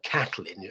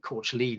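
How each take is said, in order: First: The name is said as the English Kathleen. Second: The name is said in its Irish-style form. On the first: This is what her husband called her. "Dylan called her Kathleen" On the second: This is closer to how she herself said it. "Courchlean is probably nearer to the correct pronunciation"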